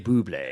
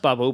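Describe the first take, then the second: First: The name ends with a 'blay' sound. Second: The name ends with a plain 'bul' sound. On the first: This is the speaker's own way of saying it. "but I say Bublé" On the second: This is claimed as the real pronunciation. "it's pronounced Bubble"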